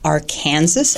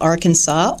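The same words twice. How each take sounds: First: The state name is said the Kansas way. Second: The state name is said the usual way.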